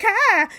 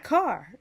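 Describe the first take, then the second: First: Loud, high Chicago "car", r dropped, laughing; Chicago accent. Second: Said in the usual way. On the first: Retold or imitated. Amused at picking up local speech, exaggerated Chicago accent on "car". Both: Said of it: "not car".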